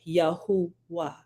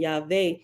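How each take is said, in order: First: The middle is an oo vowel before w. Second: The middle is a plain w consonant. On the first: The speaker calls it right. "would be correctly uh rendered, and it would be Yahuwah" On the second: The speaker calls it wrong. "the improper pronunciation Yahweh"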